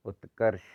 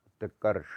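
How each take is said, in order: First: उत्कर्ष ending in a lighter sh; correct sibilant. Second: उत्कर्ष ending in a heavy retroflex sh; wrong sibilant. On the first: Teacher correcting it, उत्कर्ष with lighter sh. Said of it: "होता है". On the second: Teacher showing the error, उत्कर्ष with heavy final sh. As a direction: curl the tongue on the sh of उत्कर्ष. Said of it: "ये गलत है". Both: Shown as a demonstration.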